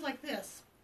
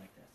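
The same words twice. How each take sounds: First: The voice is high and squeaky. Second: The voice is deep and low-pitched. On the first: "I had a squeaky high voice" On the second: "getting a deeper voice"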